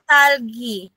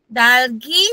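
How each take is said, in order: First: The word begins with a tense t sound. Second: The word begins with a soft d sound. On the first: The speaker calls it right. "very good. So this is talgi" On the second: The speaker calls it wrong. "So this is incorrect"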